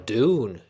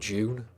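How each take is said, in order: First: It is said with an American pronunciation. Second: It is said with a British pronunciation.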